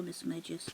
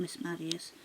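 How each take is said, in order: First: Magius said MAY-jus, with soft G; soft-G pronunciation. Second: Magius said MAD-ee-us or MAG-ee-us, no J sound; alternative pronunciation. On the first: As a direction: give "Magius" a J sound, as in "major". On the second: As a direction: say "Magius" with a hard consonant, not J. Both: Shown as a demonstration. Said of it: "depending on how you wanna pronounce it".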